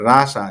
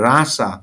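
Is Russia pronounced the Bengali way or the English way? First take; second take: English; English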